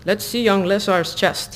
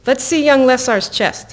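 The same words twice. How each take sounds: First: Hokey, slow Russian accent; a self-conscious stab at Russian. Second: Said in the usual way. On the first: Shown as a demonstration. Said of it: "it's, like, really hokey". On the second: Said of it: "I should be in, like, a Russian accent".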